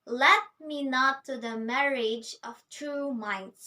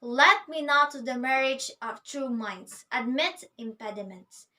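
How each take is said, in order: First: "Let" hit firmly as the very first syllable; poem line with its weight on "Let"; stress on Let. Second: Purposeful declaration. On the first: Shown as a demonstration. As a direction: open by leaning on "Let". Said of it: "we've got a stress on the very first syllable". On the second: Retold or imitated. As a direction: announce it like someone entering a room. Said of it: "coming into the room saying".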